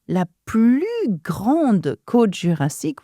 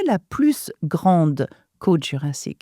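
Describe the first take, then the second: First: The s of plus is silent. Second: The s of plus is pronounced. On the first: The speaker calls it right. "in that case, we do not pronounce s sound" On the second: The speaker calls it wrong. "we don't say"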